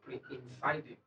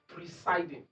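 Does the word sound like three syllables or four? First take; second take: four; three. First: The word is said with an extra 'in' syllable. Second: The word is said with three syllables. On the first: The speaker calls it wrong. "not pre-insiding" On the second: The speaker calls it right. "But it's presiding"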